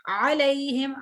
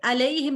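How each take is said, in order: First: अलैहिम started with a pressed ain from the throat; correct ain. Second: अलैहिम with a plain light a, no ain; the mistaken अलैहिम without the throat sound; wrong ain. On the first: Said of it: "आइन है". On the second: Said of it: "देखिए अलैहिम नहीं". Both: Shown as a demonstration.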